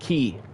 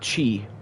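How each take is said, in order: First: The syllable starts with a hard K sound. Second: The syllable starts with a CH sound. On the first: The speaker calls it right. "It's pronounced key" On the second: The speaker calls it wrong. "not chi"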